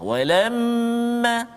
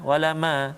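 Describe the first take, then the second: First: The word is slower with the nasal held. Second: The word is rushed without holding the nasal. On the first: The speaker calls it right. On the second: The speaker calls it wrong.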